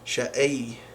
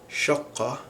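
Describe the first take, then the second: First: The word is said in a Levantine accent. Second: The word is said in Standard Arabic.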